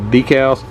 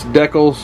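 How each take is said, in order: First: It uses the pronunciation typical in America. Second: It uses the pronunciation typical in Canada. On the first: "If you live in America, we tend to call it decals" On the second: "If you live in Canada or across the ocean, I think it's decals"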